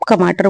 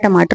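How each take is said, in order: First: The word begins with a K sound. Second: The word begins with a T sound. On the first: The speaker calls it wrong. "आप कमाटर बोल रहे हो" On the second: The speaker calls it right. "मैं टमाटर बोल रही हूँ"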